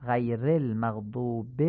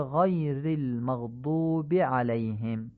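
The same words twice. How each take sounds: First: غیر المغضوب as "gheyrel maghdube"; slow demo with e after غیر; Persian-style reading. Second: غیر المغضوب as "ghayril maghdubi"; slowly, short i after غیر and المغضوب; Arabic recitation of غیر with i; Arabic kasra. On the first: Teacher shows Persian-style reading first. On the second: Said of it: "به لهجهٔ عربی تمرین کنید". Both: Shown as a demonstration.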